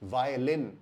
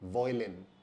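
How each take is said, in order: First: The first syllable sounds like 'vye'. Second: The first syllable sounds like 'voy'. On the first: The speaker calls it right. "उसी प्रकार" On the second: The speaker calls it wrong. "Not"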